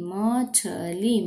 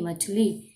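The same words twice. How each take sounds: First: मछली stretched very slowly; sounding out slowly. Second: Said in the usual way. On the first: Shown as a demonstration. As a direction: draw out मछली syllable by syllable.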